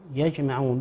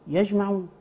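First: The j sound bounces with a short echo. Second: The j sound is flat with no echo. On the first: The speaker calls it right. "جم هنا مقلقلة" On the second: The speaker calls it wrong. "بعض الناس يقول يجمعون ... بدون القلقلة"

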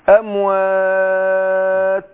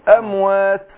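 First: The final vowel is held for four counts. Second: The final vowel is held for two counts. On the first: "اربعه توسط" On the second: "اقول بالقصر اموات. حركتين"

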